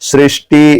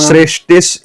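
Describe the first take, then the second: First: The word ends on a vowel, no s. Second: The word ends with an added s sound. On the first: The next word then becomes hard to say. The speaker calls it wrong. "अगर हम सृष्टि ऐसा करेंगे तो स्थिति अंत ऐसा करने में थोड़ी दिक्कत हो जाती है" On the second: The next word then follows smoothly. The speaker calls it right. "सृष्टिस ऐसा सौ को पहले बोलेंगे तो स्थित्यंत ऐसा हो जाएगा"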